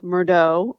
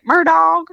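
First: The name is said with a French-style pronunciation. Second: The name is said with a Southern country pronunciation. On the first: The speaker calls it wrong. "Like in French, it would be like Murdaugh" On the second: The speaker calls it right. "they're like countries. So they're like Murdaugh"

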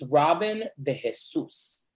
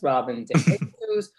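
First: Jesus is stressed on its last syllable. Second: Jesus is stressed on its first syllable. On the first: The speaker calls it right. "The accent de is Jesus. On you. So it's the last syllable" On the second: The speaker calls it wrong. "as opposed to Robin de Jesus"

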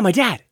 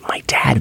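First: It is said in a normal voice. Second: It is said in a whisper.

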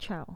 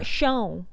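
First: The word begins with a hard ch sound. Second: The word begins with a soft sh sound. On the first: The speaker calls it wrong. "Not chow" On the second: The speaker calls it right.

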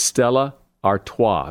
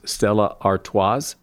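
First: The final S is silent. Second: The final S is pronounced. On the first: The speaker calls it right. "but it's Stella Artois. The last S is silent" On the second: The speaker calls it wrong. "A lot of people pronounce that last S as Stella Artois"

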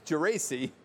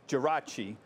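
First: The name is said with an English pronunciation. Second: The name is said with an Italian pronunciation. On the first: The speaker calls it right. "as you always keep correcting me, it's Geraci" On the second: The speaker calls it wrong. "that's the way the Italians would pronounce it"

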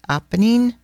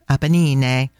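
First: It is pronounced with English sounds. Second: It is pronounced with Italian sounds. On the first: "that's how you pronounce it in English" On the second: "I'm just used to it in Italian"

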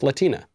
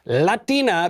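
First: The word is said with English vowels and rhythm. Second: The word is said with Spanish vowels and rhythm. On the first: The speaker calls it right. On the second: The speaker calls it wrong.

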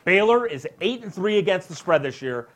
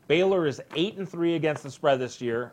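First: It is said with more excitement and energy. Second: It is said flatly, without much energy.

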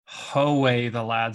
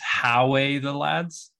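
First: The first syllable rhymes with 'go'. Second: The first syllable rhymes with 'cow'. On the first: The speaker calls it right. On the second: The speaker calls it wrong.

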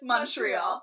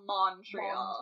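First: The first syllable sounds like 'mun' in money. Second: The first syllable sounds like 'mon' as spelled. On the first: This is how locals say it. The speaker calls it right. "it's Montreal" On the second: This makes the speaker sound like a tourist. The speaker calls it wrong. "not Montreal"

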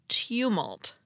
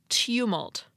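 Both takes have the same delivery.

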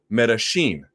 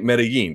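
First: The double L sounds like 'sh'. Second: The double L sounds like 'y'. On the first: This is how it is said in Argentina. "they say it like a sh" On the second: This is how it is said in Mexico. "the two L's as a Y as an English J"

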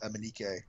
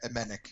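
First: The name ends with an extra final syllable. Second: The name ends without an extra final syllable. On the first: The speaker calls it wrong. "I keep pronouncing it Emenike, but it's not true" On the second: The speaker calls it right. "Sorry, Emenik"

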